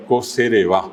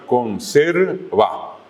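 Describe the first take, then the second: First: Co-se-re-va with no N, stressed on final VA; acento final. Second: Conserva slowly, stressed on SER; acento llano. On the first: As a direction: land on the last syllable of co-se-re-va. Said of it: "Siempre el acento final". (co-se-re-va con acento final en VA) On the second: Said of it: "Acento llano". (conserva, lento, con acento en SER) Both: Shown as a demonstration.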